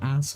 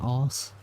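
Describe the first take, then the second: First: The vowel is a short flat 'a'. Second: The vowel is long, like 'ar'. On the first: "instead of ass" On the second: "I'd say arse"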